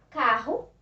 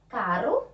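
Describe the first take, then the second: First: "carro" with a breathed h-like RR; strong double R. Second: "Caro" with a light flick of the tongue; weak tapped R. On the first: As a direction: say "carro" as ca-ho, firmly. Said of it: "Com a pronúncia forte". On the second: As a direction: tap the R in "Caro", ending on a rise. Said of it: "com a pronúncia fraca". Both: Shown as a demonstration.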